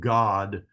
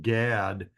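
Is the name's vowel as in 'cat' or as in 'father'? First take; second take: father; cat. First: The vowel sounds like the one in 'father'. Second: The vowel sounds like the one in 'cat'. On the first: This is the Hebrew form of the name. "in Hebrew, it's pronounced God with a kametz under the gimel" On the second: This is the English form of the name. "In English, it has an A in the middle, so it's we say Gad"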